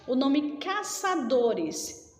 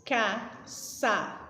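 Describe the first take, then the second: First: Said in the usual way. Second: Caçadores said slowly, syllable by syllable, as if clapping; syllables split apart. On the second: Shown as a demonstration. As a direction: spell out caçadores in separate beats ca-ça-do-res. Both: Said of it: "Alguns separam batendo palma".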